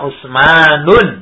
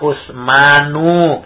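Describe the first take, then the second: First: The name ends in an added n sound. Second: The name ends in a plain vowel. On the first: The speaker calls it wrong. "Tidak boleh dibaca Usmanun" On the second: The speaker calls it right. "Contohnya misalnya Usmanu"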